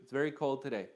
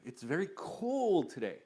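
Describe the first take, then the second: First: The words are said plainly without expression. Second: The words are drawn out with lively expression. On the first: The speaker calls it wrong. "as opposed to" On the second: The speaker calls it right. "you linger on them and you make the words come to life"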